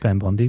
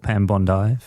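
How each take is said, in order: First: The name is said in an American accent. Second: The name is said in an Australian accent.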